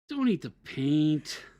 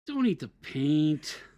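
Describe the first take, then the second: First: It sounds disappointed. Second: The same.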